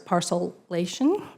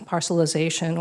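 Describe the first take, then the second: First: The word ends with the syllables '-ation'. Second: The word ends with the syllables '-ization'. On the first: The speaker calls it right. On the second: The speaker calls it wrong.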